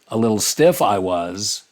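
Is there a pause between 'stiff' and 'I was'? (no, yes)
no. 'Stiff I was' runs together as one phrase. The speaker was stiff. "you could read the line like that"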